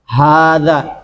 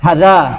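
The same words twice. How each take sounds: First: The first vowel is held long, two beats. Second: The first vowel is said short. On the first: The speaker calls it right. "Cuman dibaca panjang, dua ketukan" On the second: The speaker calls it wrong. "bukan dibaca hadza, bukan"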